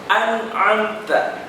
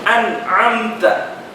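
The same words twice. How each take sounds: No difference in how they are said.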